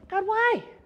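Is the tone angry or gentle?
gentle. It is said in a gentle, longing tone.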